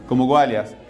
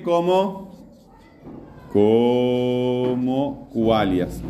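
First: Said in the usual way. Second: Very slow, stretched-out syllables; teacher's long, slow prompt; drawn-out prompting. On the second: Real, not acted. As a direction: stretch "como" out long as you lead the class. Drawing out the answer for class.

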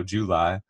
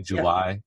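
First: July with a Southern lilt; Southern accent. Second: Said in the usual way. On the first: Shown as a demonstration. Showing an accent picked up since moving, Southern July. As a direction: say July as they do in Tennessee, Southern-style. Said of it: "That's how they say it down here". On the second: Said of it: "I can't say July correctly anymore".

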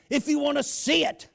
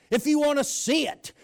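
The two takes are said the same way.

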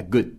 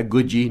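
First: "good" ending on a held D; "good" with the tongue held on the D; unreleased D. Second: "good" with a released D and an added vowel, "goodji"; "good" said Brazilian-style with a final vowel; wrong released D. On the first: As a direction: stop "good" on the D with no release. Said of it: "segure o D lá na língua". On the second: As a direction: let "good" end in an audible puff. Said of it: "Não é good". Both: Shown as a demonstration.

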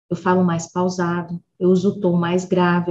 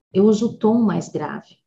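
First: Lower voice demo. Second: Said in the usual way. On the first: Shown as a demonstration. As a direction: drop the pitch lower while saying "grave".

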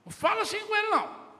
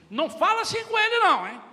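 First: Loud, high, fast repeat of the scolding; father repeating the rebuke to the mother, faster; angry rebuke. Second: Much louder, much higher scolding shout; father shouting at the mother in front of the son; angry rebuke. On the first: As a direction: snap the line back at her quickly. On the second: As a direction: yell at the mother to defend the child. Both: Retold or imitated. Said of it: "o pai na frente da mãe disse assim".

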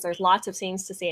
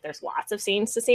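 First: Said in the usual way. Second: Questioning echo of "There's lots of scenes to see?", rising on "see"; incredulous echo. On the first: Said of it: "something that just had said". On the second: Retold or imitated. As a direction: repeat it as a doubting question, lifting "see". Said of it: "And I'm like".

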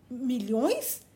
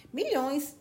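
First: Flat, lifeless question; listless. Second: Smug, satisfied confirmation; complacent. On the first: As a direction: ask it with no energy at all. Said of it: "disse Valancy sem vigor". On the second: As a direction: savour the word like a proud rich man. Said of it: "disse o doutor Redfern complacentemente". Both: A narrator's reading.

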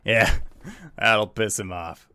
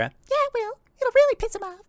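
First: Lightly voiced gruff bar patron; a hint of a gruff tavern regular; gruffer voice. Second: Very high, squeaky sidekick voice; high-pitched yes-man agreeing; second bar patron. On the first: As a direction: finish the boast with a slight gruffness. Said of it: "you hear a gruffer voice say". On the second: Acted. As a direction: echo the boast in a tiny falsetto. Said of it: "And then you hear a".

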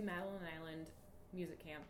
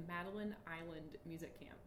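First: Said in the usual way. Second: MADELINE ISLAND said carefully, each L made clear; careful enunciation. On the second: Real, not acted. Podcaster repeats a tricky camp name for the listener, carefully enunciated. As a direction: say "Madeline Island" distinctly, taking care over the L's. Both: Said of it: "Did that come out clearly?".

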